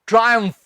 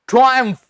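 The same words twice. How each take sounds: The two takes are said the same way.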